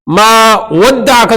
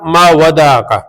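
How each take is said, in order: First: The d sound is doubled and held. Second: The d sound is short and single.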